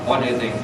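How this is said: An American accent with little mouth movement. "Kalau orang Amerika ngomong bahasa Inggris itu kan biasanya mulutnya nggak bergerak"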